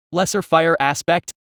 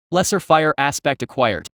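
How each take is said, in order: First: Lesser fire aspect with a rising puzzled tune; puzzled question. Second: Said in the usual way. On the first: A narrator's reading. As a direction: ask it back, baffled. Echoing the message, puzzled.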